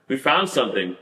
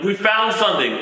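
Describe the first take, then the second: First: Said in the usual way. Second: High, excited call of a find; hammed-up triumphant yell; mock shout of discovery. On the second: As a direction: call it out like agents who found it. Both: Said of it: "screaming, like".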